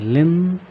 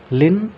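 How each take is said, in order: First: Said in the usual way. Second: लिन said higher and louder; stress on लिन. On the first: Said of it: "stress है यहाँ". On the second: Shown as a demonstration. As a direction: punch the syllable लिन. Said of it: "capital में है लिन". (लिन पर ज़ोर)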